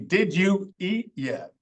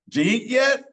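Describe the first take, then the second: First: Each word is said fully and separately. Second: The words are reduced and run together. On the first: "Which is supposed to be" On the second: "some examples of common American English"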